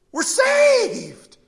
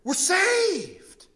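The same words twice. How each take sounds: First: Much higher and louder full-throated shout; full shout of joy. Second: First cry of relief, high and loud; yelled joy. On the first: Lepers screaming their rescue to each other, a full high shout. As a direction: let it burst out as the joy peaks. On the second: Lepers yelling their rescue at each other, loud and high. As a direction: call it out in disbelieving joy. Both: Retold or imitated. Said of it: "They just begin to yell at one another".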